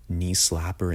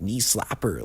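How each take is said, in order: First: Said in the usual way. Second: A higher, mocking knee slapper, lightly imitating the rapper; weird voice. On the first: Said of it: "but he's doing, like". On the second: Reviewer mocking the rapper's ad-lib in a weird voice. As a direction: parody the odd ad-lib, knee slapper pitched up and sing-song. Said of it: "he's saying it in just this weird-ass voice".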